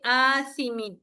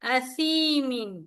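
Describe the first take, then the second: First: The first vowel is drawn out with breath. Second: The first vowel is short and plain. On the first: The speaker calls it wrong. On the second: The speaker calls it right.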